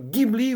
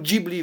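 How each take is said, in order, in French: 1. Le nom se prononce à l'italienne. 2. Le nom se prononce à la japonaise. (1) "soit l'italienne" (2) "soit la japonaise"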